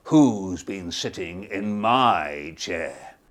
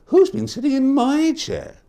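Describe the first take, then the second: First: Papa Bear. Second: Higher, lighter mother bear voice; Mama Bear. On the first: Papa Bear discovering his porridge, slow booming. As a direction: boom it out slowly like a big bear. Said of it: "And Papa Bear said". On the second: Mama Bear discovering her porridge, higher fussy. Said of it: "And Mama Bear said". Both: Acted.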